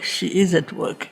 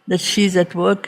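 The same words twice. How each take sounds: First: "is" said in full and stressed, softer falling close. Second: Said in the usual way. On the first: Real, not acted. Teacher assuring listeners of unseen force, stress on "is". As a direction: lean on "is" as a quiet affirmation. Insists she works, though unrecognized.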